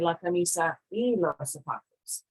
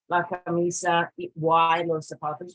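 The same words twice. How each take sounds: First: The 'y' sounds like a short 'ee'. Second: The 'y' sounds like English 'why'. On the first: The speaker calls it right. "we say la camisa y los zapatos" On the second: The speaker calls it wrong. "we don't say la camisa y los zapatos"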